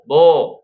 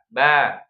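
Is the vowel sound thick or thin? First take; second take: thick; thin. First: The vowel is thick and rounded, like o. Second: The vowel is thin and open, like a. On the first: The speaker calls it wrong. "jangan o, bo, to, salah ya" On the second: The speaker calls it right. "Tapi a, ba, ta"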